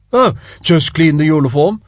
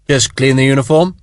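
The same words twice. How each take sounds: First: Lightly mocking copy of Sharp; mimicking. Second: Said in the usual way. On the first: Spiers mockingly mimicking Sharp's words, a light mock. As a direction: parrot his words back, teasing. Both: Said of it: "Lord Spiers mimicked him".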